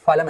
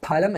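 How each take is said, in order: First: ഫലം said with English f, falam; the wrong way: f sound in ഫലം. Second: ഫലം with an aspirated p, phalam. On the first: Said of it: "ഫലം എന്ന് വായിക്കരുതേ". (ഫലം എന്നത് എഫ് ശബ്ദത്തിൽ) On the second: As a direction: say ഫലം with a puff after p. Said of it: "ഫലം എന്ന് വായിക്കണം". (ഫലം ശ്വാസത്തോടെ പ-യിൽ) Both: Shown as a demonstration.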